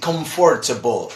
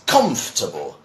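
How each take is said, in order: First: The word is said long, every letter sounded. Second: The word is said short, with sounds dropped. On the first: It is read the way it is spelled. The speaker calls it wrong. "So many people try to say comfortable" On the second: It is the English pronunciation. The speaker calls it right. "It's shorter"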